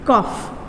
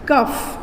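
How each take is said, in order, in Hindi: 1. यह शब्द f की ध्वनि से समाप्त होता है। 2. यह शब्द f की ध्वनि से समाप्त होता है।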